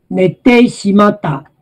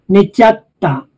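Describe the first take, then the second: First: The full form with "teshimatta" is pronounced. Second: The contracted form merges into "chatta".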